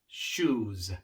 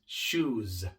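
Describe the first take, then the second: No difference in how they are said.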